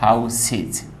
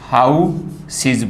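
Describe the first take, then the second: First: The second syllable sounds like 'sez' with s. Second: The second syllable sounds like 'seez' with s. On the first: "अब है इसको हम क्या बोलते हैं, हाउ सेज बोलते हैं" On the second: "फिर भी गलत हो जाएगा"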